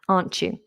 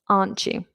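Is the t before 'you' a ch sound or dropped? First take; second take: ch sound; ch sound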